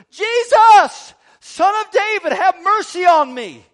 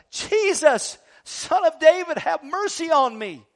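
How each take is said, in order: First: Full desperate shout, much higher and louder; yelling even louder. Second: High, loud call across a crowd; crying out. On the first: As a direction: scream it over the crowd trying to hush you. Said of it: "caused him to yell out all the louder". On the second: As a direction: blind man calling out for help. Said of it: "and he cries out". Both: Acted.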